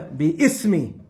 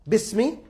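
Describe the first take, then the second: First: The two parts are split with a sounded vowel. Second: The word is run together with no separate vowel. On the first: This is the underlying original form. "the origin is bi ismi" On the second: This is how it is actually read. "it's bismi ... that's why you didn't hear me pronounce it"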